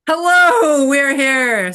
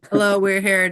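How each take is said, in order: First: High, loud, drawn-in hello falling at the end; called-out greeting. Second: Said in the usual way. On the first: Real, not acted. Host hailing listeners after a laugh, loud high call. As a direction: sing out the hello loudly and high.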